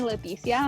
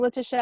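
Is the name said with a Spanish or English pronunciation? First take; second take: Spanish; English. First: The name is said with a Spanish pronunciation. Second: The name is said with an English pronunciation. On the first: Only her mother calls her this. "my mom calls me Leticia" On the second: This is how she introduces herself. "it's like I say Letitia"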